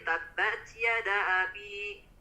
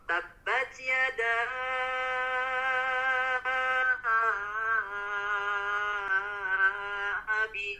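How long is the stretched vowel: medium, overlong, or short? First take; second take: short; overlong. First: The vowel is not lengthened at all. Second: The vowel is stretched far too long. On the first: "tidak dibaca panjang" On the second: "terlalu dipanjangkan"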